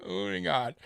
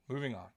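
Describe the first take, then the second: First: Chuckling through the words; laughing. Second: Said in the usual way. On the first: Real, not acted. Laughing at himself while changing the subject. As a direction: let the laugh spill into it.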